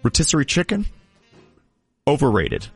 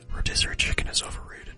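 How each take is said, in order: First: It is said in a full voice. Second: It is said in a whisper.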